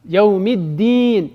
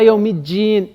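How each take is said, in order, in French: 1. La dernière syllabe commence par un d simple. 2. La dernière syllabe commence par un son dj. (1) "c'est comme un D" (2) "pas Yaoumidjin, ça c'est une fausse prononciation"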